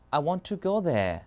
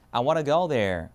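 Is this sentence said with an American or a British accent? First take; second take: British; American. First: It is said with a British accent. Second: It is said with an American accent. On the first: "영국은 이겁니다" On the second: "미국 영어는요"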